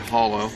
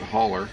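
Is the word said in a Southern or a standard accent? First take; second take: standard; Southern. First: The word is said in a standard accent. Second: The word is said in a Southern accent.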